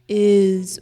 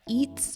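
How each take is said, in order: First: The word ends in a buzzing z sound. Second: The word ends without a buzzing z sound. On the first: The speaker calls it right. "is with a Z sound" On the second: The speaker calls it wrong. "not eats"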